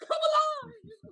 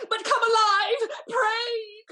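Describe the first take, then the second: First: Much higher, slow, crying shout; sobbing cry. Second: Higher, louder half-sobbing plea; tearful plea. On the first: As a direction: wail the plea through sobs. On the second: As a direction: plead through tears. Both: Acted. Lady begging him come back alive.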